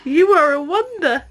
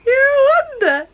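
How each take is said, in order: First: Said in the usual way. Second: Much higher squeaky cooing repeat. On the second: Real, not acted. Second take, higher to baby.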